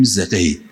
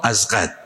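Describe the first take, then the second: First: زقید said the local Mashhadi way, as "zeqid"; local Mashhad name. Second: ازقد said as the proper written form, "azqad"; correct name. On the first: (زقید با تلفظ محلی مشهدی، «زِقید») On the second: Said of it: "اما". (ازقد با تلفظ درست و رسمی، «اَزقَد») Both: Shown as a demonstration.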